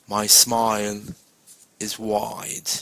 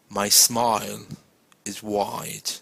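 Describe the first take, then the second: Both takes have the same delivery.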